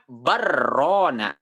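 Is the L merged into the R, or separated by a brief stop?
merged. The L merges into a doubled R without stopping. The speaker calls it wrong. "kalau misalkan dia diidghamkan"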